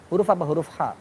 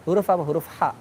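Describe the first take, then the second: No difference in how they are said.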